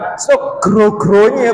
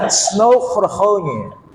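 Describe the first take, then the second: First: The surname starts with a G sound. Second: The surname starts with an H sound. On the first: The speaker calls it wrong. "Bukan Snow Grogronye" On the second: The speaker calls it right. "Yang betul Snow Horhonye"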